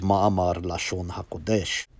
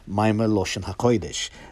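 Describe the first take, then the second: First: It uses a standard modern Hebrew pronunciation. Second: It uses an older Yiddish-influenced Ashkenazi pronunciation.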